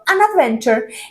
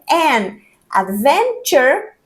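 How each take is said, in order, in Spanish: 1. Las dos palabras se dicen juntas, como una sola unidad. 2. Las dos palabras se dicen separadas, con una pausa. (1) "queda junto an adventure" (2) "En vez de an, adventure"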